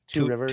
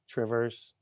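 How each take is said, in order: First: The two words are said fully and separately. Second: The two words are squeezed into one short word. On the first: This is the full form of the name. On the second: This is how locals say it.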